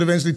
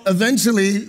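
First: Said in the usual way. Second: "eventually" set apart with emphasis; stress on EVENTUALLY. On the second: Real, not acted. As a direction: lean on the word "eventually". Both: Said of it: "with emphasis on the word eventually".

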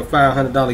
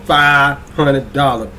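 First: Said in the usual way. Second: Drawn-out, lightly imitated actress delivery; Taraji P Henson voice. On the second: Host repeating the giveaway prize, in a light actress impression. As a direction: stretch each word in a light celebrity impression. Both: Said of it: "in my Taraji P Henson voice".

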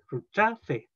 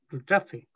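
First: Rutrafe said slowly, syllables apart; correct way. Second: Rutrafe said the wrong way, run together; teacher showing how rutrafe is not said. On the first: Teacher demos the correct rutrafe for students, slow and careful. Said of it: "dice rutrafe". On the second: Teacher demos the wrong way to say rutrafe, run together. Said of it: "no dice como ru". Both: Shown as a demonstration.

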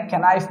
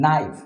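First: ক্যানাইফ with the K sounded at the start; wrong pronunciation. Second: নাইফ with a silent K, starting on N; correct pronunciation. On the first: Teacher shows learners the wrong way to say knife, K sounded. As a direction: say ক্যানাইফ, voicing the silent K before N. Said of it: "ক্যানাইফ বলা যায় না". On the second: Teacher shows beginners the right way to say knife, silent K. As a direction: say নাইফ, dropping the K entirely. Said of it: "এটাকে বলতে হয়". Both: Shown as a demonstration.

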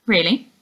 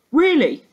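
First: Polite. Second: Higher, louder, pressing the word Really?, falling at the end; insisting. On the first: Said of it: "Laura said politely". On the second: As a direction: push Really? back at her, insistent. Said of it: "insisted the man". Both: Acted.

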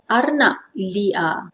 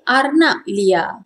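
First: Formal "arnab liar", slow and careful; formal Malay pronunciation. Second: Everyday "arnab liar", syllables joined; informal Malay pronunciation. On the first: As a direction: say "arnab liar" slowly, each syllable separate. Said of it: "Formal pronunciation". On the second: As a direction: say "arnab liar" as commonly spoken. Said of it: "We all say arnab liar". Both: Shown as a demonstration.

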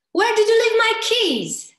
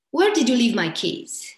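First: Keys line pitched far higher and louder. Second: Said in the usual way. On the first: Shown as a demonstration. Coach asking about lost keys, pitched up high. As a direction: throw the question up high and urgent. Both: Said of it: "you can do it just with pitch".

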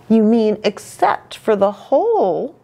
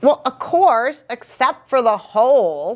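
First: Higher, pointed correction; mildly corrective story-character voice; correcting. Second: High-pitched, defensive agreement; as if it were obvious all along. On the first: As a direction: put a friend right. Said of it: "Rainbow Fish corrected". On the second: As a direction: brush off the correction. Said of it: "Little Blue's quite defensive". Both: A narrator's reading.

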